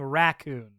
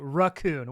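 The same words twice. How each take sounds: First: The first syllable is a full 'rack' sound. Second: The first syllable is a reduced 'ruh' sound. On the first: The speaker calls it right. "We're saying it R A C O O N" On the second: The speaker calls it wrong. "You're saying R U H C O O N"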